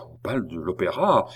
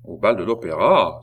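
First: Understated, anxious repetition; anguished. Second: Louder, frowning question; startled exclamation. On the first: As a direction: echo it with a touch of anguish. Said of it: "répéta d'un air plein d'angoisse". (répétition angoissée, retenue) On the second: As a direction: exclaim it in stern disbelief. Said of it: "s'écria le roi en fronçant le sourcil". (question exclamée, sourcils froncés) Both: A narrator's reading.

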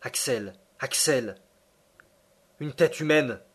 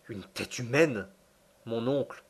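First: Hushed call rising to an exclamation; astonished professor calling his nephew; quivering cry of discovery. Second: Stupefied reply. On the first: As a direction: cry out the find with a trembling voice. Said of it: "s'écria d'une voix frémissante". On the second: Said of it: "répondis-je non moins stupéfait". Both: A narrator's reading.

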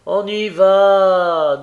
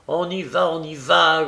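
First: Loud, high, long-drawn answer; sing-out reply from inside an office; calling back. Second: Mild mocking grumble, repeated; grumpy courier echoing the reply; grumbling. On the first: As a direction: stretch the last word as you call out. Director calls back to courier. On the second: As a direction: grumble the words back impatiently. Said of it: "grommela le courrier". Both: A narrator's reading.

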